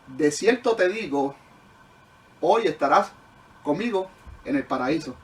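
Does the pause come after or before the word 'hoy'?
before. The pause falls just before the word 'hoy'. Being in paradise happens that same day. The speaker calls it wrong.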